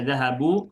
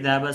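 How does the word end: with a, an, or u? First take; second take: u; a. First: The word ends with a short u vowel. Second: The word ends with a short a vowel. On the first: The speaker calls it wrong. "Tidak dibaca dhahabu" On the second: The speaker calls it right. "perhatikan huruf terakhirnya adalah fathah"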